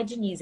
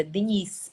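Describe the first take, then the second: First: "Diniz" com i claro, final em z, jeito brasileiro; pronúncia brasileira. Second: "Diniz" dito "Dénish", vogal fechada, jeito de Portugal; sotaque português. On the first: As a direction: diga "Diniz" como no Brasil, di-NIZ. ("Diniz" com sotaque do Brasil) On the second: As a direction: pronuncie "Diniz" à portuguesa, dê-NISH. ("Diniz" com sotaque de Portugal) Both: Retold or imitated. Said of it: "com sotaque português".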